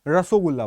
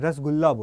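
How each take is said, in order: First: An extra o vowel follows the first syllable. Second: No vowel follows the first syllable. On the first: This is what it is called in Bengal. "आप बंगाल में खाओगे तो उसको रसोगुल्ला बोलते हैं" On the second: This is what it is called in Bihar. "Bihar में आप जाएंगे तो वहां पे रसगुल्ला बोला जाता है"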